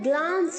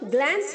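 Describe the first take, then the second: First: The vowel is a long open 'ah' sound. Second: The vowel is a short front 'a' sound. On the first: The speaker calls it right. "ग्लांस होता है" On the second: The speaker calls it wrong. "गलत pronounce है बच्चों, ग्लैंस नहीं होता है"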